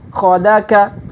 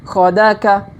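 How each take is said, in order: No difference in how they are said.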